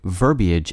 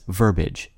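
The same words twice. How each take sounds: First: The ending is two syllables, ee-ij. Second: The ending is one syllable, like marriage. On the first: "the word verbiage" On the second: "less common but widely accepted pronunciation"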